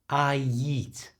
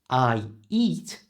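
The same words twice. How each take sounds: First: A y sound links I to eat. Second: The words are separate, with no linking y sound.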